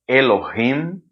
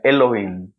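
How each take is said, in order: First: The middle h is clearly breathed out. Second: The middle h is dropped and not breathed. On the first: This is the older, traditional pronunciation. "o pessoal mais antigo fala" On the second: This is the newer pronunciation used by younger speakers. "não aspira. Então seria Elohim. Elohim sem o Rim"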